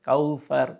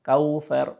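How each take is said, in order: First: The middle consonant is a soft th sound. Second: The same.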